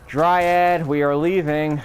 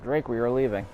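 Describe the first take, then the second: First: Loud, higher-pitched call to a companion. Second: Said in the usual way. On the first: Real, not acted. Player summoning the dryad to leave, calling out loudly.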